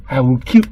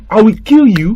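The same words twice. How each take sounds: First: Said in the usual way. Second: Louder, harder death threat. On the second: Acted. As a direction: punch the threat out at the child. Uncle repeats threat.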